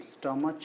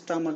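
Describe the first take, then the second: First: The word ends with a ch sound. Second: The word ends with a k sound. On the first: The speaker calls it wrong. "स्टमच नहीं बोलते" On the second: The speaker calls it right. "सो हम स्टमक बोलते हैं"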